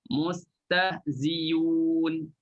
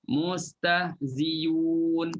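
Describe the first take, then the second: First: A y sound replaces the glottal sound. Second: The same.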